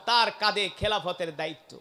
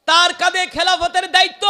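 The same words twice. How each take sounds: First: Said in the usual way. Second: High, very loud proclamation; emphatic preaching shout. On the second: Acted. Preacher driving home Omar's new duty, high loud shout. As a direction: belt it out on a high sustained pitch.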